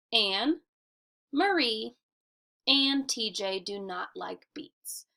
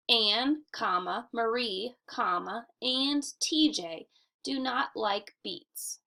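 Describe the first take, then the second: First: Short pauses after "Anne," and "Marie," with no word comma; natural list reading. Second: "Anne, comma, Marie, comma" with the word comma spoken; saying the commas aloud. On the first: Teacher modelling how to read the sentence aloud. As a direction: read it with little breaths at the commas. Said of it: "You would say it like this". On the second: Teacher showing where the commas go by saying them. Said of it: "you do not say the word comma". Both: Shown as a demonstration.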